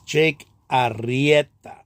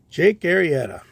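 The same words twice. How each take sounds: First: The r is strongly trilled, Spanish style. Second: The r is said as a plain English r.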